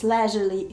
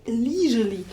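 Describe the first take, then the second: First: Leisurely with a short e as in LEZH-uh-lee; British pronunciation. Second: Leisurely with a long ee as in LEE-zhur-lee; American pronunciation. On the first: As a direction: say leisurely the British way, first vowel like let. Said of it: "leisurely in British English". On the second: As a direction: say leisurely the American way, first vowel like see. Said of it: "in American accent". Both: Shown as a demonstration.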